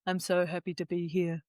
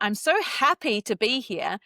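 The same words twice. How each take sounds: First: The voice sounds flat and unhappy. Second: The voice sounds genuinely happy and warm. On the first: The speaker does not mean the words. The speaker calls it wrong. "That's incongruent" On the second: The speaker means the words. The speaker calls it right. "you want to sound happy"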